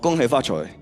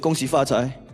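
First: It is said in Cantonese. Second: It is said in Mandarin.

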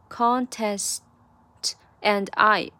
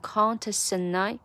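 First: The words are said separately without linking. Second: The words are linked together smoothly.

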